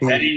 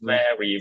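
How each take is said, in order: First: Both lips close for a b-like start. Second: Upper teeth touch the lower lip softly. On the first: The speaker calls it wrong. "ভ্যারি না" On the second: The speaker calls it right. "নরম হবে, দাঁত লাগবে ঠোঁটে"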